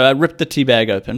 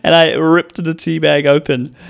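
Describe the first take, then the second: First: Said in the usual way. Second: Emphatic slow telling. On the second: Shown as a demonstration. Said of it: "So I ripped the tea bag open".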